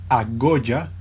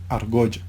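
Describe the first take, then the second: First: The r merges into a doubled g sound. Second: The r is pronounced before the g. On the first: This is the eastern Cuban pronunciation. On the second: This is the standard pronunciation.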